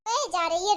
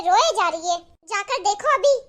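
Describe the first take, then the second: First: Said in the usual way. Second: रोए jumps louder, irritated. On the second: Acted. Husband pushes wife to check on mother, louder and irritated. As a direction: push रोए hard, annoyed.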